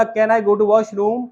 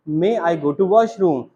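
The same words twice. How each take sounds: First: Put-on small child asking. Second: Patient teacher. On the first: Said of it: "बच्चे ने बोला". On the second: Retold or imitated. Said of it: "ma'am ने समझाया".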